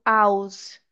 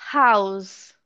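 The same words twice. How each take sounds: First: "house" said as "ouse", without H; wrong, H dropped. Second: "house" slow and lower, with a breathed H; H sounded. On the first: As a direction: start "house" on the vowel, no H. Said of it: "eu não falo house". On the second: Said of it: "Olha o som do H". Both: Shown as a demonstration.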